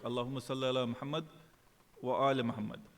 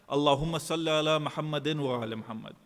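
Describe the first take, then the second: First: There is a pause before the second part. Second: It is said in one breath without pausing.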